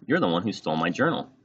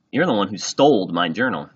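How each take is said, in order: First: Said in the usual way. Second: "stole" said as stoled, with a final d; louder accusation with "stole" ending in a d; childish wrong grammar. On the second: A narrator's reading.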